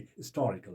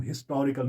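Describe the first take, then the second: First: "हिस्टोरिकल" as is-TOR-ical, softer; dropped H. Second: "हिस्टोरिकल" with the opening H pronounced; wrong sounded H. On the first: Teacher correcting the reading, "हिस्टोरिकल" without its H. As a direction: drop the H on "हिस्टोरिकल", stress TOR. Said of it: "बल्कि हिस्टोरिकल पढ़ेंगे". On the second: Teacher showing what not to read, "हिस्टोरिकल" with H. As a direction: say "हिस्टोरिकल" starting with a full HIS. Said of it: "हिस्टोरिकल नहीं पढ़ेंगे". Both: Shown as a demonstration.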